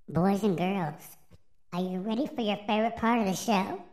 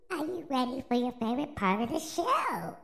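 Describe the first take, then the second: First: Put-on upbeat, fast kids host; overbright kids party host. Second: Higher, hammed-up kids host; overbright kids party host. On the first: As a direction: hype up the boys and girls. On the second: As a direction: pump up the crowd once more. Repeats the call louder in spirit.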